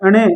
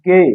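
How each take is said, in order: First: It begins with a vowel before the nasal. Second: It begins directly with the nasal sound. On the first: This is how people commonly say it. "जो क्या बोला जाता है" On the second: This is the pure sound of the letter. "इसकी शुद्ध ध्वनि क्या होती है"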